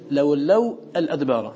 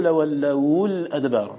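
First: لولوا الأدبار with a vowelless waw, then "al-adbar"; original form. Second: لولوا الأدبار linked as "lawallawul-adbar"; waw given vowel. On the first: Teacher showing the original, unvowelled waw ending the first word of لولوا الأدبار. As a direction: keep waw and lam apart in لولوا الأدبار. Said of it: "والأصل لولوا". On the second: Teacher resolving two silent letters, waw voiced with u in لولوا الأدبار. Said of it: "دفعوا التقاء الساكنين بتحريك الواو". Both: Shown as a demonstration.

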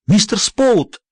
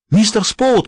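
First: Calling out. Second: High call into the dark. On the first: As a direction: call for him in panic. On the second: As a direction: call out for him, panicked. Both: A narrator's reading. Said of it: "позвала она".

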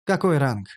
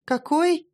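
First: Said in the usual way. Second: Very high-pitched surprised question; incredulous high query; astonished. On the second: A narrator's reading. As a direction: shoot up in pitch with disbelief. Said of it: "удивилась Шантри вместе со мной".

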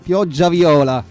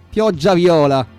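No difference in how they are said.

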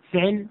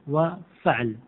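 First: فعل said "fi'l", i after the f; fi'l form. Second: وفعل said "wa fa'l", a after the f; slow, no vowel on the ayn in وفعل; fa'l form. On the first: Teacher repeats first variant for class, pronounced fi'l. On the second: Teacher repeats second variant for class, pronounced fa'l. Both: Shown as a demonstration. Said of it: "يجوز فيها ثلاث لغات".

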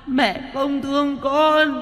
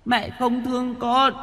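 First: Put-on high, slow, stretched baby wail; drawn-out ghost wail. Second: Put-on high, soft baby-like wail; a ghost child sobbing at its mother. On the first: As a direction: drag the words out as an eerie infant cry. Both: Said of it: "Nó khóc như là tiếng đứa trẻ sơ sinh".

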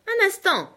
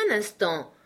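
First: Much higher and louder, halting him; sharp call to stop. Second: Said in the usual way. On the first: Acted. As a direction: stop him mid-step. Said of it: "dit mon oncle". (interpellation vive, bien plus haute et forte)

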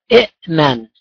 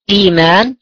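First: إئمان with a glottal stop after the first i, i'-man; original form with two hamzas. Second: Said in the usual way. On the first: Shown as a demonstration. Teacher showing the awkward original form to students, hamza stop clearly heard. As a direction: break إئمان with a hard hamza stop before mim. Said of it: "هكذا". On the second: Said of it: "أصل كلمة".

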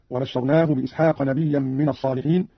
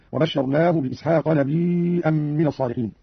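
First: Said in the usual way. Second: "نبيا" as nabii'an, long ii held four counts before a hamza; hamzated ya. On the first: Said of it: "همز قالون الياء". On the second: Shown as a demonstration. Teacher showing Qalun, "نبيا" with long madd and hamza. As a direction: stretch the ii of "نبيا", then a glottal stop. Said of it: "همز قالون الياء وتصير عنده مدا متصلا".

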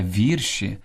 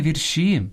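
First: Вірші stressed on ВІР; stress on first syllable. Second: Вірші stressed on ШІ, higher; end-stressed вірші; wrong last-syllable stress. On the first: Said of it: "Слід казати". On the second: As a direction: say вір-ШІ. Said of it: "найчастіше неправильно наголошуєте". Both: Shown as a demonstration.

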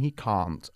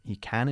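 First: "can't" with the long car vowel; British can't. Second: "he can" with a short flat A; short British can. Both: Shown as a demonstration. Teacher repeats the contrast for the student. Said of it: "Eso es".

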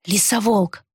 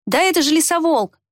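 First: Said in the usual way. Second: Excited exclamation. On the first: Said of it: "повторил Фейр". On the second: A narrator's reading. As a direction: blurt it out in wonder. Boy recognizes the beast. (радостное восклицание)

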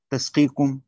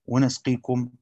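First: تسقيكم slowly as "tasqeekum"; ta with fatha. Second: ونسقيكم slowly as "wa nasqeekum"; nun with fatha. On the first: Teacher demonstrating Abu Ja'far's reading, تسقيكم slowly said "tasqeekum". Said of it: "بالتاء وفتحها". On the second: Teacher demonstrating Nafi's reading, ونسقيكم slowly said "wa nasqeekum". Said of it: "بالنون وفتحها". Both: Shown as a demonstration.

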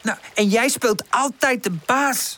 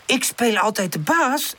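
First: High, slow cross accusation; pitched-up sulky anger; angry. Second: High, affronted question; hurt, pitched-up disbelief; offended. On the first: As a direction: throw it at your friend, leaning on the words. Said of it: "zegt Woezel boos". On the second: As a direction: echo the accusation, insulted. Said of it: "herhaalt Pip beledigd". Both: A narrator's reading.

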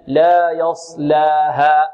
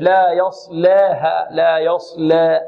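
First: Very slow لا يصلاها with a straight 'laa'; open alif. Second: Slow يصلاها with 'laa' bent towards 'lee'; tilted alif error. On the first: Teacher correcting the tilted vowel, open lam. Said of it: "نحافظ على فتح اللام". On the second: Teacher imitating those who over-thin it, tilted alif. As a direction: tilt the alif of يصلاها into an 'eh'. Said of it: "فيميل الألف". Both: Shown as a demonstration.

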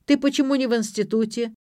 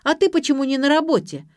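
First: Raised-pitch accusing demand; accusing question. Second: High, loud counter-question; sharp retort. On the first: Drunken father demands why daughter skips college, accusing. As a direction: challenge her, moderately forceful. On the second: Daughter turns father's question back on him, retorting. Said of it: "отбила мяч дочь". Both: A narrator's reading.

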